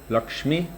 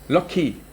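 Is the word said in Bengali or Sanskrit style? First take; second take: Sanskrit; Bengali. First: It is said the Sanskrit way, with ksh. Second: It is said the Bengali way, like lucky.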